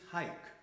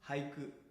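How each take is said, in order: First: It is said as one syllable, like 'hike'. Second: It is said with a final 'ku' sound. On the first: This is how it is said in English. "In English" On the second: This is how it is said in Japanese. "in Japanese"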